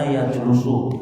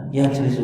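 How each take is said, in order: First: "yajlusu" with an u in the middle syllable; wrong vowel. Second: "yajlisu" with an i in the middle syllable; correct vowel. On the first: Teacher shows the class a misreading, "yajlusu" said with middle u. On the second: Teacher gives the class the correct reading, "yajlisu" with middle i. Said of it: "Yang ada". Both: Shown as a demonstration.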